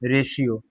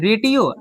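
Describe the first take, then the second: First: The middle consonant is an sh sound. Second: The middle consonant is a plain t sound. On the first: The speaker calls it right. "तो हम पढ़ेंगे रेशियो।" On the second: The speaker calls it wrong. "तो रेटियो ऐसा तो नहीं पढ़ेंगे ना।"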